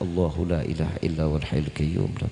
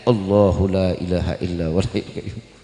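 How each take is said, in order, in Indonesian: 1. Dibacanya pelan dan lirih. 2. Dibacanya agak dikeraskan sedikit, setengah bersuara. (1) "pelan-pelan dalam hati" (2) "Agak dijaharin dikit"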